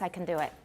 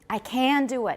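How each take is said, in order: First: The word 'can' is reduced and unstressed. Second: The word 'can' is full and stressed. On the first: This is the ordinary way to say it. "but normally it's" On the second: The speaker is being very emphatic. "那是很强调"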